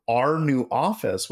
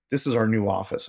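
First: Incredulous echo. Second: Said in the usual way. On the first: Retold or imitated. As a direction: repeat it back, not believing. Echoes boss in disbelief.

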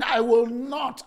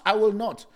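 First: Drawn-out shouted "I will not"; slow defiant shout. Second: Said in the usual way. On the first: Retold or imitated. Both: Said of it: "the guy is saying".

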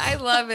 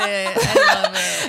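First: Said in the usual way. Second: High, slow laugh-stretched love; drawn-out giggling "I love it"; laughing delight. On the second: Real, not acted. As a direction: savour it through laughter.

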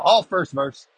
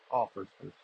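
First: Said in the usual way. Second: Quiet echo. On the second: Real, not acted. Repeats line as quiet aside.

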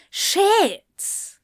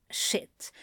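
First: Shit cried out high and loud, falling away; panicked cry. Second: A breathless whispered shit; whispered curse. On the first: Crowley realising his mistake, crying out shit in panic. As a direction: let the panic burst out high. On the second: Crowley realising his mistake, whispering shit. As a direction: mutter it under your breath in dawning horror. Panicked realisation, then outburst. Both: Acted.

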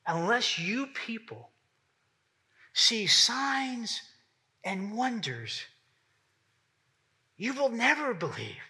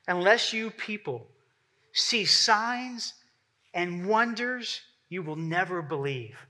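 First: Unless you people see signs and wonders, you will never believe said slowly and softly, each phrase set apart by pauses; slow, heavy repetition. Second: Said in the usual way. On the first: Shown as a demonstration. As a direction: let each phrase sink in, slow and hushed. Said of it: "repeated for emphasis". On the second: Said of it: "this is what Jesus says".

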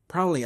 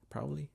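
First: "Proudly." said firmly, falling to an end; settled proudly. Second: "Proudly?" said softly with a questioning rise; unsure proudly. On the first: To listeners, finally settling on the word, firm. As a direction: land "Proudly." with a confident fall. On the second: To listeners, doubting her English, quiet unsure try. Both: Shown as a demonstration. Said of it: "I don't know how to say".

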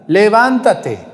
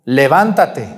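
First: Levántate drawn out, higher and louder, slow; commanding call. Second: Said in the usual way. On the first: Acted. Jesus ordering the dead youth to rise, booming. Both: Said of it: "golpeó el ataúd".

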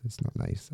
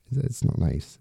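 First: Drops to a hushed whisper; a soft whispered echo of the line. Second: Said in the usual way. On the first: Real, not acted. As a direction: breathe it out almost unvoiced. Repeated, dropped to a whisper.

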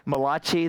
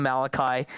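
First: Malachi said as ma-LAH-chee, with a rising end; Malachi given a mock Italian ring, ma-LAH-chee; Malachi pronounced the Italian way, ma-LAH-chee; Italian-style Malachi. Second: Malachi said MAL-a-kye, in plain English; Malachi back to MAL-a-kye, matter-of-fact; Malachi the normal English way, MAL-a-kye; usual English Malachi. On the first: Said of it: "the Italian prophet". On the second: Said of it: "we'll just call him Malachi". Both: Shown as a demonstration.

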